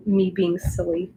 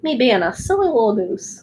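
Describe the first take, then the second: First: Said in the usual way. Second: Silly little voice. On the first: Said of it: "that's not my accent". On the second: Pretend. Streamer showing her little voices, playfully silly. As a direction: put on a silly little voice for fun. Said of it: "sometimes I do little voices".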